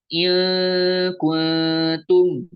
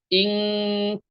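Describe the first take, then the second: First: The first syllable ends in a clear consonant. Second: The first syllable ends in a nasal ng sound. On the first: The speaker calls it wrong. "bukan dibaca ilkuntum" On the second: The speaker calls it right. "tapi ingkuntum"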